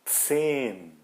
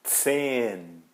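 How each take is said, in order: Both takes have the same delivery.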